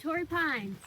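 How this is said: It is said with enthusiasm.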